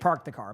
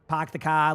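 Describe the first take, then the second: First: It is said without a Boston accent. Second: It is said with a Boston accent.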